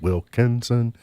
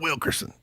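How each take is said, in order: First: The middle syllable has an n sound. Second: The middle syllable has an r sound. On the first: The speaker calls it right. "No, it's Wilkinson" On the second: The speaker calls it wrong. "about eighty percent of Kentuckians called him Wilkerson"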